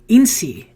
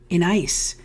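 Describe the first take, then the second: First: The name is said as one word 'in-see'. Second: The name is said as one word 'in-ice'. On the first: "I've pronounced it every kind of way in my life" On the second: "I've pronounced it every kind of way in my life"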